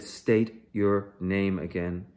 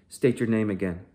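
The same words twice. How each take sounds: First: Slow, every word hammered, STATE stretched long; slow, emphatic repeat. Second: Loud, clipped command to the prisoner; stern order. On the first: Soldier repeats his order to Bassam, slow and hammered. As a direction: spell it out like he's stupid. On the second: Soldier orders Bassam to repeat his name, loudly. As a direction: bark the order at him. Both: Acted. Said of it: "I said".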